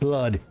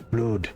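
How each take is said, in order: First: Blood is said with a standard English vowel. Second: Blood is said with a Northern English vowel. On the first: "it's not blood" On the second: "it's blood, like like that"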